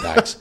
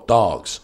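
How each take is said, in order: First: The vowel sounds like an 'a'. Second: The vowel sounds like a drawn-out 'o'. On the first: The speaker calls it wrong. "I've never heard a traveller ever pronounce it like Dags" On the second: The speaker calls it right. "we always go, oh, with everything. You know, dogs. We go, dogs"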